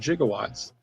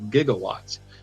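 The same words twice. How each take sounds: First: The word begins with a soft j sound. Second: The word begins with a hard g sound. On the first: This is how it was said in the film. The speaker calls it wrong. "he said one point two one gigawatts" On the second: This is how the word is normally said. The speaker calls it right. "it's actually supposed to be pronounced gigawatts"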